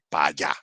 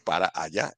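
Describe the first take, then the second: First: 'Para' is clipped and run into 'allá'. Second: Every syllable of 'para' is fully pronounced. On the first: This is how Panamanians speak. "Así, así hablamos" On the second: This is how others say it. "en vez de decir"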